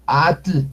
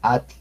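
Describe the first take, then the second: First: Atl with a fully sounded L; wrong voiced tl. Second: Atl with the L barely breathed; soft tl. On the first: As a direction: overdo the tl ending of Atl. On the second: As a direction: cut atl to at plus a light puff. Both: Shown as a demonstration. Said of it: "no, at-, atl".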